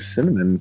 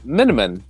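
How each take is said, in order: First: The word begins with an 's' sound. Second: The word begins with an 'm' sound. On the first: A grown-up is saying it. The speaker calls it right. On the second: A small child is saying it. The speaker calls it wrong.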